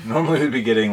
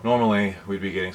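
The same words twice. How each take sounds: First: Said in the usual way. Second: Winded, breathy start; out of breath. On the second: Real, not acted. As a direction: speak while catching your breath. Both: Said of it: "sorry, I'm out of breath".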